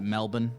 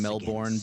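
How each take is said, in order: First: It is said the way locals pronounce it. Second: It is said the way outsiders pronounce it. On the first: "they pronounce it" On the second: "kind of like how you'd say"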